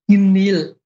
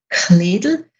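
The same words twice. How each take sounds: First: Far east: barely aspirated K, D almost gone. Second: Western dialect: strongly aspirated K, clear D.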